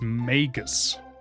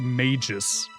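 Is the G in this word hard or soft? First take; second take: hard; soft. First: The G is hard, like in go. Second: The G is soft, like in mage. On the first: The speaker calls it right. "I'm pretty sure it's Magus with a hard G" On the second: The speaker calls it wrong. "A lot of people say mages. Like mage, but with an us behind"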